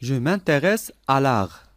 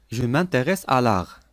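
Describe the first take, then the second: No difference in how they are said.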